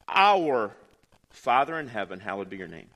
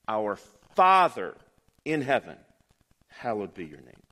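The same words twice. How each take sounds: First: The word 'our' is stressed. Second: The word 'father' is stressed. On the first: "emphasize the first word and read the sentence" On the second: "emphasize the second word"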